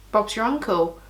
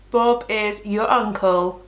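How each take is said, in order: First: Said in the usual way. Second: Slow, deliberate, with IS spelled out in full; slowly spaced-out catchphrase; emphatic restatement. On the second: Real, not acted. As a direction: stretch out "Bob is", word by word. Repeats phrase slowly, uncontracted.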